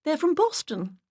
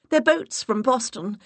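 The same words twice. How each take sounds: First: Higher, breathless lady voice; high put-on flustered voice. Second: An octave up, stressing their; flustered self-correction, pitched high; higher, louder, ditzy; high put-on voice correcting herself. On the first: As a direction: voice an octave up, stressing from. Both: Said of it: "I raised my voice an octave".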